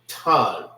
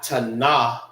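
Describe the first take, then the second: First: The word ends on the n sound. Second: A vowel sound follows the final n. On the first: The speaker calls it right. "It forms one sound" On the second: The speaker calls it wrong. "Not tana"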